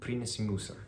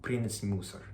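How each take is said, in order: The two takes are said the same way.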